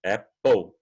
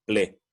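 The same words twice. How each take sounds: First: Apple terminando em "pol", com O; apple ending po. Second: "ple" com E aberto no fim; wrong ple. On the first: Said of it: "Olha, O". (Apple com som de O no fim) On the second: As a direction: diga o errado, "ple". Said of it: "Não é ple". (o final errado "ple") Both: Shown as a demonstration.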